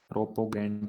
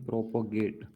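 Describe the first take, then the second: First: The word ends with an 'nt' sound. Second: The word ends with a plain 't' sound. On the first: The speaker calls it wrong. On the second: The speaker calls it right.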